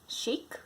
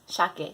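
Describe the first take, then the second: First: It is said like the English word shake. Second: It is said with Japanese-style sounds. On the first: The speaker calls it wrong. "A lot of people, they when they look at the menu, say shake" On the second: The speaker calls it right. "but it's shake, salmon"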